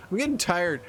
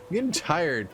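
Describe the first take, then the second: No difference in how they are said.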